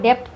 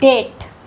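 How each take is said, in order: First: A b sound is pronounced before the t. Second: No b sound is pronounced before the t. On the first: The speaker calls it wrong. "बहुत सारे लोग इसको डेप्थ पढ़ते हैं, तो आज से ही सुधार लीजिए" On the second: The speaker calls it right. "बी यहाँ साइलेंट है, इसको पढ़ते हैं डेट"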